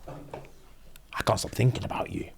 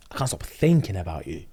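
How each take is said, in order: First: Slow, hushed whisper; whispered confession. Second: Said in the usual way. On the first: Retold or imitated. Mister Gage confessing his feelings to Demi, whispering. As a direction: breathe it like a secret.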